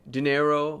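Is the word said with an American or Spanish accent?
American. It is said with an American pronunciation. "they say it in an American way"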